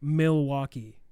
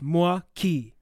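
First: The name is said with three syllables. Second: The name is said with two syllables. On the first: This is the common modern pronunciation. The speaker calls it wrong. "if you hear it on the news, it's pronounced as Milwaukee" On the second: This is the original historical pronunciation. The speaker calls it right. "it's actually only two syllables"

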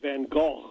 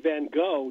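First: Gogh is said with throaty Dutch sounds. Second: Gogh is said with plain English sounds. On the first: This is closer to how Dutch speakers say it. The speaker calls it right. "not Van Gogh" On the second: This is how English speakers commonly say it. The speaker calls it wrong. "and they say Van Gogh"

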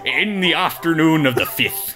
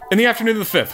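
First: It is read in a put-on pirate voice. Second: It is read in a normal speaking voice. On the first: "I can't do a pirate voice" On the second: "I'm going to read regular"

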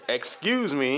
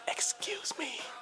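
First: It is yelled loudly. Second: It is said quietly.

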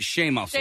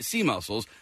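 First: The first word starts with a sh sound. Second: The first word starts with an s sound. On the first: This is how the family says the name. "we pronounce it Shea Muscles" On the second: This is how the name reads from its spelling. "if you were to read it, it would look like Sea Muscles"

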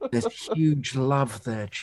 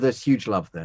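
First: It is said with a tone of awe. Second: It is said in a flat, plain tone.

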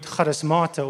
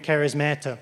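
First: It is said in a non-American accent. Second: It is said in an American accent.

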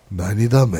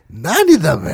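First: It is said in a calm, quiet tone. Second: It is said in a mocking, teasing tone.

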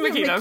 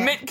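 First: The name is said in a full, longer form. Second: The name is said in a short, clipped form. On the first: The speaker calls it right. "It's Makita" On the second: The speaker calls it wrong. "I've been pronouncing your name wrong"

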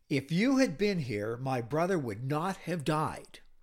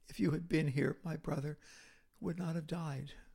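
First: It is said in a sharp, accusing tone. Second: It is said in a broken, grieving tone. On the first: She blames him for not coming. "that was an accusatory tone" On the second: She grieves and pours out her sorrow. "Mary says it with a breaking heart"

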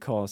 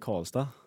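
First: It is said in a standard Swedish accent. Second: It is said in a Värmland dialect accent. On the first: "jag säger inte Karlstad" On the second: "jag säger Karlstad. När man säger ortnamnen så blir man mer dialekt"

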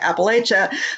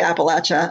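First: It is pronounced the way Northern speakers say it. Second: It is pronounced the way Southern speakers say it. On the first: "the Northern folks tend to say Appalachia" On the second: "Southern folks tend to say Appalachia"

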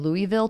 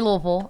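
First: The name is said with the outsider pronunciation. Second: The name is said with the local pronunciation. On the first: This is said so people from elsewhere understand. The speaker calls it wrong. "I started saying Louisville to people because they didn't understand me" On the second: This is how the speaker naturally says it. The speaker calls it right. "I say Louisville"

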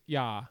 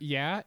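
First: The vowel is an open 'ah' sound. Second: The vowel is a plain, ordinary 'eh' sound.

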